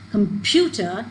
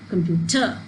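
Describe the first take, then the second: First: The stress is on the middle syllable. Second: The stress is not on the middle syllable. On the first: The speaker calls it right. "if the stress is on this pu, so we obviously we're going to pronounce it as computer" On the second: The speaker calls it wrong. "So computer or computer is a mispronunciation of this word"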